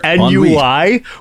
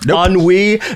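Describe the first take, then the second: First: It is said like an acronym. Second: It is said as the French word. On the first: The speaker calls it wrong. "it's not an acronym" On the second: The speaker calls it right. "It's a French word"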